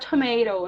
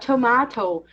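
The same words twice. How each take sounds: First: It is spoken with an American accent. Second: It is spoken with a British accent. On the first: "nos Estados Unidos, eu vou falar tomato" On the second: "na Inglaterra, eu vou falar tomato"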